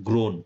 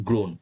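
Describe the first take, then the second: Both takes have the same delivery.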